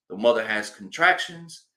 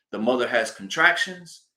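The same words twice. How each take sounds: The two takes are said the same way.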